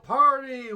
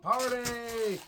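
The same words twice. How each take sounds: First: High, loud party yell; loud party shout. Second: High party whoop; rowdy party cheer. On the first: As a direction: scream it at the crowd. Party chant take, louder. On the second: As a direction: yell it like a frat party. Party chant take. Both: Pretend.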